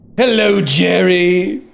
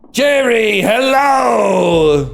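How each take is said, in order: First: It is said in a Newman impression. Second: It is said in an Uncle Leo impression.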